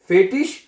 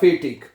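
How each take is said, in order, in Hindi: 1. यह शब्द नरम 'sh' की आवाज़ से खत्म होता है। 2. यह शब्द कड़ी 'k' की आवाज़ से खत्म होता है। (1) "शीन की आवाज में भी पढ़ा जाता है" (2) "गे की आवाज में भी पढ़ सकते हैं"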